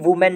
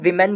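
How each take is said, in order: First: The first syllable sounds like 'woo'. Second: The first syllable sounds like 'wi'. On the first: The speaker calls it wrong. "वुमेन नहीं बोलेंगे" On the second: The speaker calls it right. "विमेन बोलेंगे"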